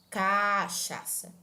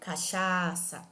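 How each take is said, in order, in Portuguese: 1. Uma sílaba diferente de 'cha' é prolongada. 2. A sílaba 'cha' é prolongada. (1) "Nós não falamos cachaça" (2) "eu estou arrastando a pronúncia do segundo A"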